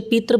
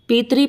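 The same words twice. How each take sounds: First: पित्र ending in "tra", no "ree"; common mispronunciation. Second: पितरी ending in a clear "ree"; correct pronunciation. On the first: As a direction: say पित्र as "pitr" with a short vowel. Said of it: "बहुत सारे बच्चे पित्र बोलते हैं". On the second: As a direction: say पितरी with "ri" after the t. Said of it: "इसके अंदर री है". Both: Shown as a demonstration.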